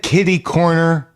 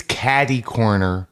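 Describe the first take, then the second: First: "kitty" said with a short i, KIT-ee; imitated "kitty", first vowel as in "kit"; wrong pronunciation. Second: "catty" said with a short a, CAT-ee; slow, lower "catty" with an open a; corrected pronunciation. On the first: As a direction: quote "kitty" with the vowel of "sit". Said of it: "It's catty corner". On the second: Shown as a demonstration. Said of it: "He said kitty corner".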